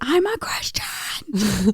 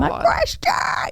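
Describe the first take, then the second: First: It is said at a normal volume. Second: It is screamed very loudly.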